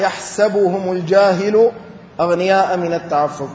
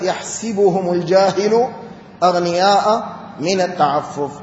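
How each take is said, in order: First: يحسبهم with a after the s; يحسبهم بفتح السين; yahsabuhum reading. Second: يحسبهم with i after the s; يحسبهم بكسر السين; yahsibuhum reading. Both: Shown as a demonstration. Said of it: "قرئت".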